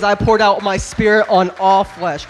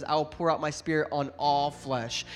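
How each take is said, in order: First: Louder and slow, every word hammered; preached scripture. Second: Said in the usual way. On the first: Shown as a demonstration. Pastor thundering scripture to the congregation, loud and slow. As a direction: proclaim it to the whole room. Scripture repeated at peak of sermon.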